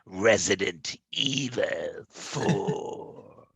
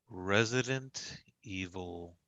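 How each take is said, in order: First: It imitates the game's announcer voice. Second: It is said in his normal voice.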